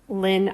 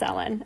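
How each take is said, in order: First: It is pronounced as a single word. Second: Each letter is spoken separately, L then N. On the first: The speaker calls it wrong. "some people say, try to pronounce this as a word" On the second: The speaker calls it right. "you just pronounce each letter"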